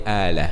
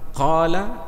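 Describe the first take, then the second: First: The word begins with a glottal stop. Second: The word begins with a deep q sound.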